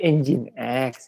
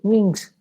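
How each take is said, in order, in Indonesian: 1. Diucapkan sebagai dua bagian, 'engine X'. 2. Diucapkan sebagai satu kata, 'en-jinks'. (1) "oh bacanya itu" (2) "Saya dulu bacanya apa itu?"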